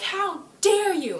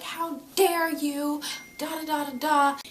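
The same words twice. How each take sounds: First: Much higher, louder, slow outrage; hammed-up roaring how dare you; mock enraged shout. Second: Hammed-up high tirade; mock furious diamond. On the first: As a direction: bellow it as the giant rises. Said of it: "stands up and she's like". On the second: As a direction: ham up the outraged ruler. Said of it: "Yellow Diamond flips out".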